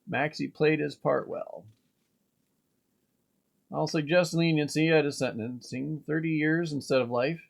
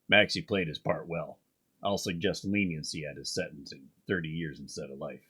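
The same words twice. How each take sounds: First: It is read in his normal voice. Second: It is read in a Batman voice.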